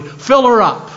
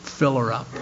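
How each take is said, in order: First: Proudly. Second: "Fill her up" said low and much softer, as a humble prayer; a hushed personal plea to the Father in heaven; softly spoken, not a whisper; quiet prayer. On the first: Retold or imitated. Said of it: "I said proudly". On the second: Acted. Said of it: "say to the Father in heaven".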